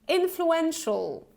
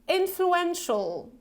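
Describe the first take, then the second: No difference in how they are said.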